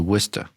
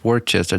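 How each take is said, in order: First: The middle letters are dropped, sounding like 'Woo-ster'. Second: Every written syllable is pronounced, as spelled. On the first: This is how people actually say it. "They say" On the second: This is how the spelling reads. "It says"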